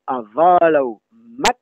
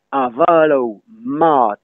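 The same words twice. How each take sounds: First: Slow "avalao", then a short, quick A in "mat". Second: Slow "avalao mat", the A of "mat" held long. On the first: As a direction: cut the vowel of "mat" short. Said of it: "le A est bref". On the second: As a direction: stretch the vowel in "mat". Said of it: "M A D dans avalo". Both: Shown as a demonstration.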